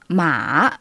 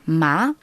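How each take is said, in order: First: It is said with the third tone. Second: It is said with the second, rising tone. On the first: It means horse. "le troisième ton" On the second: It means flax. "en deuxième ton, ... C'est un ton qui monte"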